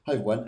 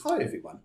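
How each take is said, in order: First: Said in the usual way. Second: Mock viewer greeting. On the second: Reading viewer's greeting aloud.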